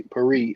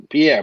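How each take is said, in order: First: Perry said as PERR-ee, stress on the first syllable; a wrong first try, PERR-ee; mispronounced name. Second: Pierre said pee-AIR, stress on the second syllable; corrected reading of Pierre as pee-AIR; corrected name. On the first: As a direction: read Perry flatly like the common surname, PERR-ee. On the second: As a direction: fix it to Pierre, pee-AIR, with a falling tune. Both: Real, not acted.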